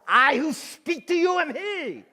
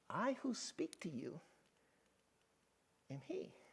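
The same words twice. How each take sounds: First: It is said sternly, like a scolding. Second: It is said playfully, like sharing a secret.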